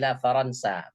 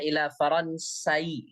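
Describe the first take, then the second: First: The name ends plainly on a long a. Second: An extra vowel sound is added after the final a. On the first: The speaker calls it right. "tapi ila Faransa" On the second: The speaker calls it wrong. "tidak boleh dibaca ila Faransai, nggak boleh"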